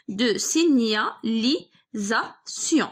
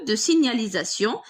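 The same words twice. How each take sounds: First: Very slow signalisation, broken into si-gna-li-sa-tion; pauses between syllables, as if writing along; syllable-by-syllable dictation. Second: Said in the usual way. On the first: Shown as a demonstration. Dictates the word while writing it.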